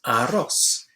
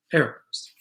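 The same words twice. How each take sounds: First: Arroz with open a and o and a final s; Spanish arroz. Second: Arrows in English, AIR-ohz. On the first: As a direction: say Arroz the Spanish way, then compare. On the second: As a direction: say arrows the English way after Arroz. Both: Shown as a demonstration. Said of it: "Arroz kind of sounds like arrows".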